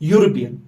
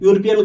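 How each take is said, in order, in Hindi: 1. शब्द की शुरुआत एक व्यंजन y ध्वनि से होती है। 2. शब्द की शुरुआत एक सादी स्वर ध्वनि से होती है। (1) "हम पढ़ते हैं यूरोपियन। ... ये यो निकलती है" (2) "यूरोपियन गलत है"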